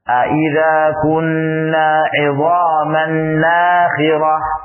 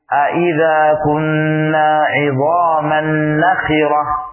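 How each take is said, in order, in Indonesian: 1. Vokal pertama dari kata terakhir panjang. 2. Vokal pertama dari kata terakhir pendek. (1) "bacaan yang dipanjangkan" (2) "dibaca dengan tanpa alif"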